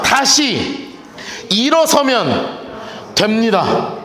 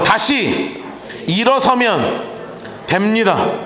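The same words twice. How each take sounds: First: 일어서면 drawn out slowly, falling; slow call to repeat. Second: 일어서면 said a bit lower, falling; second call to repeat, a touch lower; quieter repeat. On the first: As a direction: lead the congregation slowly through 다시 일어서면. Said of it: "다시 따라합시다". (천천히 따라 하도록 이끄는 말투) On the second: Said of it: "다시 한번". (조금 낮게 다시 따라 하는 말투) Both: Shown as a demonstration.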